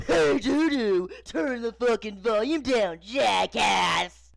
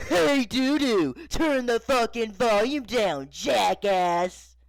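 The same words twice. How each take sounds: First: Loud, high shout mimicking dad; jeering full-volume holler; mocking yell. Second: Loud, slow, high-pitched dad shout; irate father bellowing an insult; angry yell. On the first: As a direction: yell it back mockingly, drawn out. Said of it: "mockingly yelling". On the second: Acted. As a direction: holler each word at full volume. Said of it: "and yelling".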